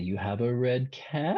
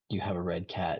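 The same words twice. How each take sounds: First: The voice rises at the end. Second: The voice falls at the end. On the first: It is a question. "you inflect at the end" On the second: It is a statement. "instead of, you know, saying"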